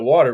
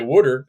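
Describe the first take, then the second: First: It is said with a standard accent. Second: It is said with a Philadelphia accent. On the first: "instead of water" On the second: "I'm from Philly. I could say water"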